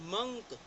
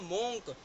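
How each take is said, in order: First: The vowel sounds like 'uh'. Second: The vowel sounds like 'oh'. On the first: The speaker calls it right. "जबकि इनको बोला जाता है मंक" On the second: The speaker calls it wrong. "इसको हम बोलते हैं मोंक"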